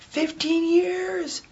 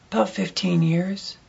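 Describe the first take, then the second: First: High, soft, very drawn-out disbelief; mock astonishment. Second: Said in the usual way. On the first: Diner echoing the waitress's answer, high astonished drawl. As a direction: stretch it out in a high, amazed voice. Re-enacts amazement at her answer.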